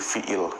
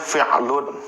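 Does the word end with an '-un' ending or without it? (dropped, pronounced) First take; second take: dropped; pronounced. First: The word ends without the final vowel ending. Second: The word ends with a final '-un' ending. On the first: This is the pausal form used in study. "harokat terakhir nggak dibaca jadi fiil" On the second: This is the actual full form. "Sebetulnya dia fi'alun"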